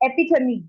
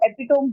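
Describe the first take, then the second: First: The word ends with a 'tuh-mee' sound. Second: The word ends with a 'tome' sound. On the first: The speaker calls it right. "एपिथमी बोला जाता है" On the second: The speaker calls it wrong. "Spelling देख के students इसको एपिटोम बोलेंगे"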